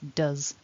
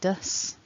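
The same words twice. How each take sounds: First: The word ends with a buzzing z sound. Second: The word ends with a hissing s sound. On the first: The speaker calls it right. "that's a z at the end" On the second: The speaker calls it wrong. "I'm not saying does"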